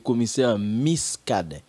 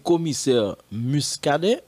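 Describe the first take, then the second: First: The name's first vowel is an 'i' sound. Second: The name's first vowel is a 'u' sound. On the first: "ou bien I?" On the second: "Est-ce que c'est Ul gagné"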